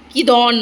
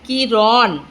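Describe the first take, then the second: First: The middle consonant is a d sound. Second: The middle consonant is an r sound. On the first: The speaker calls it wrong. "কিদন নয়" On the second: The speaker calls it right.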